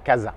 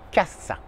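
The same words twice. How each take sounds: First: The middle consonant is a voiced z. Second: The middle consonant is a voiceless s. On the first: The speaker calls it wrong. "et pas" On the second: The speaker calls it right. "uniquement se, pas de ze"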